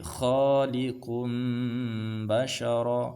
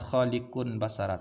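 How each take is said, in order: First: The nasal before the b sounds like m. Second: The nasal before the b sounds like n. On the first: The speaker calls it right. "tapi khaliqum bashara, seperti itu" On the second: The speaker calls it wrong. "Jangan bacanya"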